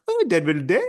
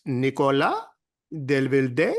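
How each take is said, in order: First: Delvilde said flatly, the rise dropped; flat, sure pronunciation. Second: Nicolas Delvilde said as a question, rising on Delvilde; upspeak on the name. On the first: Locals correcting the announcer, name stated as a fact. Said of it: "They're like". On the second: Imitating Paris locals, the name rising like a question. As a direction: make Nicolas Delvilde sound unsure, tune rising at the end. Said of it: "There's a question mark at the end". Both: Retold or imitated.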